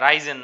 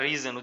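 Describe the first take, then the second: First: The first vowel sounds like 'eye'. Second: The first vowel is a short 'i'. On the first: The speaker calls it wrong. "রাইজেন না" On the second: The speaker calls it right. "উচ্চারণটা রিজন"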